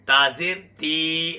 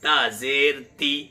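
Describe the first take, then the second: First: The final vowel is stretched out long. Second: The final vowel is short and clipped. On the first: The speaker calls it wrong. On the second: The speaker calls it right.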